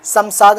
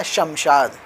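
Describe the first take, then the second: First: शमशाद said as Samsad, both sh sounds turned to s; शमशाद with plain s sounds; demonstrating how not to say शमशाद; wrong way. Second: शमशाद said as Shamshad, both sh sounds clear; शमशाद with the big sheen sounding sh; the proper शमशाद; correct way. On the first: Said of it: "नहीं बोल सकते हैं". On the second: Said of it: "ये बोलने का तरीका है". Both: Shown as a demonstration.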